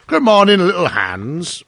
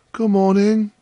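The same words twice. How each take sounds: First: Loud, high opening greeting, slowing on the name; hearty miller. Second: High, sustained friendly greeting; cheerful Hans. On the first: Miller greeting little Hans in his garden, hearty. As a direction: hail him heartily as the miller. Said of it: "said the miller". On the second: Hans answering the miller over his spade, cheerful. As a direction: answer brightly as humble gardener. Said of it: "said Hans". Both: A narrator's reading.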